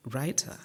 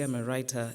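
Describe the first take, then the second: First: "writer" lifted into a sceptical question; mock doubt on "writer", ending on a rise; doubting echo. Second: Said in the usual way. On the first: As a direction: echo "writer" with a rising, disbelieving tune. Officials echoing her answer in disbelief.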